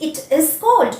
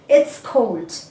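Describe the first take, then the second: First: It is said as three full words. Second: It is said with the contracted form. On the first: The speaker calls it wrong. "We will not say it is cold" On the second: The speaker calls it right. "the second one is correct"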